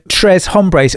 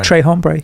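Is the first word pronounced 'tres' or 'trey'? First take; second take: tres; trey. First: The first word ends with an s sound. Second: The first word ends without an s sound.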